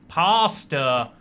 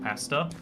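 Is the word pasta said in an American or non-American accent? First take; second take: American; non-American. First: The word is said in an American accent. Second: The word is said without an American accent.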